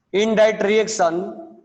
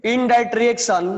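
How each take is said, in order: First: Very slow, stretched dictation; slow classroom dictation. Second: Slow, word by word dictation; measured classroom dictation. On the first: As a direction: drag each word out so the class can write. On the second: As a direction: spell it out slowly for note-taking. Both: Shown as a demonstration. Dictating a definition to students.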